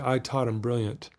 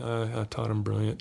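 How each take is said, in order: First: It is said with strong feeling and energy. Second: It is said flatly with low energy.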